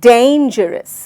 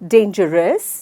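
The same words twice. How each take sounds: First: The stress is on the first syllable. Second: The stress is on a later syllable. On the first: The speaker calls it right. "सही विधि है dangerous. सो मैंने डेन पे जोर दिया।" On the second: The speaker calls it wrong. "बिल्कुल भी नहीं।"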